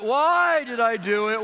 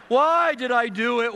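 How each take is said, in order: First: Slow, loud repeated lament; wailing child. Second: High, slow, loud lament; wailing child. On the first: Son wailing alone in his room, slow and loud. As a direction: wail it again, dragging each word. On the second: Son wailing in his room after being caught, slow and loud. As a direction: cry it out slowly like a sorry child. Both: Retold or imitated.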